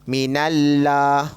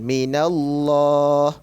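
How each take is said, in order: First: The L in Allah is thin and light. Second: The L in Allah is thick and heavy. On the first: The speaker calls it wrong. "tak nak baca macam tu" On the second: The speaker calls it right. "kena baca secara tebal"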